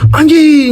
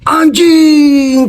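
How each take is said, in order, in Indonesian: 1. Diucapkan dengan nada kaget yang tiba-tiba. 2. Diucapkan dengan nada kagum dan takjub. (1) "orang kaget juga sekarang nyalain anjing dikagetin anjing" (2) "memuji orang itu bisa anjing keren banget"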